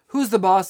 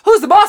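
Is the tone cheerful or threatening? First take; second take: threatening; cheerful. First: The tone is menacing and threatening. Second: The tone is bright and cheerful. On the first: "All threatening" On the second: "We're excited"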